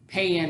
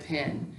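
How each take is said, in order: First: "pan" drawn into a Southern twang for pin; Southern Missouri twang. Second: Said in the usual way. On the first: Retold or imitated. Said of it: "everything sounded like a twang". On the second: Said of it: "instead of".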